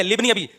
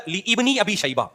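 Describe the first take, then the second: First: لابن said as "libni", short i, no hamza; silent alif. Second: لابن very slow, "li-ibni" with doubled i; mock correction. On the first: Shown as a demonstration. Teacher correcting the engineer, silent alif demonstration. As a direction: run لابن together as quick "libni". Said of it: "یہ الف silent ہے". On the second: Speaker mimicking the engineer's correction, drawn-out misreading. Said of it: "اصل لفظ ہے".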